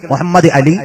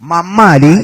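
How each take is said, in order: First: The name is said in full, every syllable. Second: The name is squeezed into a short blended form. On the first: This is the original Arabic form of the name. "മുഹമ്മദ് അലി എന്ന് വിളിക്കല് അറബികൾക്ക് മാത്രമേ സാധിക്കൂ" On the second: This is how local people commonly say the name. "പല ശൈലിയിലല്ലേ വിളിക്കുന്നത്"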